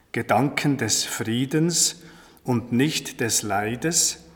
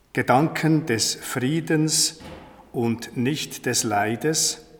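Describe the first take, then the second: Both takes have the same delivery.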